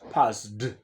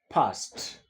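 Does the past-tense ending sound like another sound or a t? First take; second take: another sound; t. First: The ending is not pronounced as a t sound. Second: The ending is pronounced as a t sound. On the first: The speaker calls it wrong. "not passed" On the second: The speaker calls it right. "the past tense is a passed"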